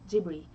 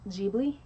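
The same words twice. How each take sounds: First: The middle consonant is an R-like sound. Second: The middle consonant is a clear L sound. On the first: This follows the Japanese pronunciation. "it's Ghibli, because they do not have the L sound" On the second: This follows the original Italian pronunciation. "It's not Ghibli"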